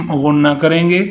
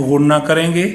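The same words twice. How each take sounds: No difference in how they are said.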